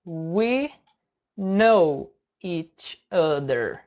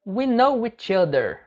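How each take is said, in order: First: Very slow, pause after every word; word-by-word model. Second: Measured, connected teaching delivery; linked model phrase. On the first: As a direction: break it up slowly for learners. Teacher breaks phrase word by word. (bem devagar, palavra por palavra) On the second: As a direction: model the phrase for learners in one go. Teacher models phrase, then word by word. (frase-modelo ligada, para o aluno) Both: Shown as a demonstration.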